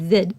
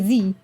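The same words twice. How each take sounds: First: The letter is said the Canadian way, zed. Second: The letter is said the American way, zee.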